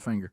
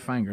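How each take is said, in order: First: The first vowel sounds like the vowel in 'finger'. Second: The first vowel sounds like the vowel in 'fang'. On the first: This is how the spelling suggests saying it. The speaker calls it wrong. "not Finger" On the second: This is how the town's name is really said. The speaker calls it right. "You say it Fanger"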